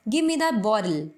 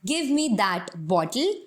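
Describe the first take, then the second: First: "bottle" said "boddle"; flapped t "bottle". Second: Very slow, "bottle" with a hard t. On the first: Teacher showing the native flap. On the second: Teacher showing the Indian form. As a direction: separate words. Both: Shown as a demonstration. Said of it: "दोनों ही statements में difference".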